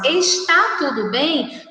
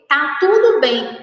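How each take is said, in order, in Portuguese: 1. A primeira palavra é dita por completo, com duas sílabas. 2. A primeira palavra é abreviada para uma sílaba. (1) "ao invés de nós falarmos está tudo bem" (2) "nós abreviamos a palavra está pela palavra tá"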